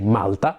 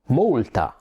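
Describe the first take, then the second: First: Malta is said with the Italian pronunciation. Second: Malta is said with the English pronunciation. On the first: "We say Malta" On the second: "as you say"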